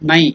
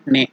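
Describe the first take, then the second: First: The vowel sounds like 'eye'. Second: The vowel sounds like 'eh'. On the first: The speaker calls it right. "It is Nai" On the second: The speaker calls it wrong. "It is not Ne"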